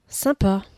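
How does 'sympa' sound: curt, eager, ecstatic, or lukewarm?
lukewarm. It trails off with a half-hearted, unimpressed tone. The speaker is unimpressed and indifferent. "avec ses trois petits points. Là, c'est le bof à la parisienne"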